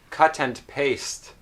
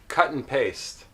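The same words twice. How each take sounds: First: It is said in a careful, textbook way. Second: It is said in a relaxed, natural way. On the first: "here's how maybe you know these words" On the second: "This is how I would usually pronounce these words"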